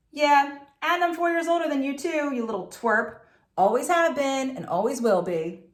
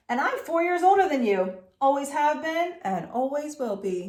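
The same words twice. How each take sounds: First: High taunting call; calling after. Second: Put-on high, sneering older brother. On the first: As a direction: shout the taunt after her. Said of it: "he called after me". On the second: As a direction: sneer it down at her. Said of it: "he sneered". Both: A narrator's reading.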